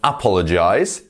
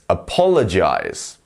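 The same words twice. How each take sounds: First: The stress is not on a middle syllable. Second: The stress is on a middle syllable. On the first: The speaker calls it wrong. "So it's not apologize" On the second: The speaker calls it right. "We're going up in the middle"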